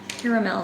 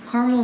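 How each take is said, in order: First: It is said the fancier, more elaborate way. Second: It is said the plain, everyday-sounding way. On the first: "Caramel sounds fancy, fun" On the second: "Caramel sounds more natural"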